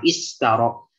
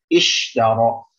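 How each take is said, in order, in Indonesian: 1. Konsonan di tengah adalah bunyi 's' yang mendesis. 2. Konsonan di tengah adalah bunyi 'sh' yang mendesir. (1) "Jangan istaro. Jangan menjadi sin" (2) "Sifat tafasyi pada huruf shin mesti dijelaskan"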